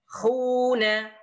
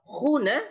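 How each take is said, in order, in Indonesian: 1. Vokal pertama ditahan panjang. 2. Vokal pertama pendek dan cepat.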